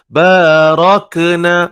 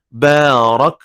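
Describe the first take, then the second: First: The final k ends with a bouncing vowel echo. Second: The final k ends with a puff of breath. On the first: The speaker calls it wrong. "itu tak boleh" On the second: The speaker calls it right. "yang bunyi itu bukan lantun, itu adalah angin"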